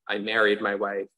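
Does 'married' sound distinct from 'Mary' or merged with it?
merged. Married has the same vowel as Mary. "they have the S sound for all of them"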